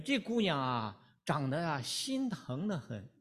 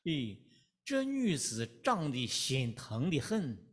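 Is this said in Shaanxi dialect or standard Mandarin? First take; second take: standard Mandarin; Shaanxi dialect. First: It is said in standard Mandarin. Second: It is said in Shaanxi dialect.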